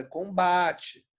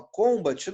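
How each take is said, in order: First: Combate said com-BA-te, with BA drawn out; correct stress. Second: Combat said CÔM-bate, first syllable punched; wrong stress. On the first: Teacher correcting the wrong reading, long stressed BA in combate. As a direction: slowly stretch the BA of combate. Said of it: "Combat, não. É combate". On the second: Teacher rejecting a wrong reading, first-syllable stress on Combat. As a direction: hit the COM of Combat, clip the rest. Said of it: "É combate". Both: Shown as a demonstration.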